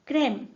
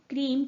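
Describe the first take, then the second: First: The vowel sounds like the e in bed. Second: The vowel sounds like 'ee'. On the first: The speaker calls it right. "But क्रेम" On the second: The speaker calls it wrong. "This becomes not क्रीम"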